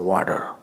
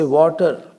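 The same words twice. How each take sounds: First: It is said in an American accent. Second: It is said in a non-American accent. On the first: "If you are American, you will say water" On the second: "I say water"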